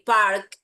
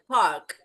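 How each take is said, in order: First: The R sound is clearly pronounced. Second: The R sound is almost silent. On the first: "They don't say park" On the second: "Like the R is almost non existent"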